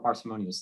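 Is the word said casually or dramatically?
casually. The word is said in a casual, ordinary way. The word is treated as an everyday word. The speaker calls it right. "And say it like it's a normal word"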